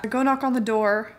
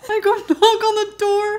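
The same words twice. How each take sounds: First: Said in the usual way. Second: High, louder, laughing through tears; laugh-crying. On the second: Real, not acted. Retelling the cat story, she repeats it laugh-crying. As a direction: cracks up mid retelling.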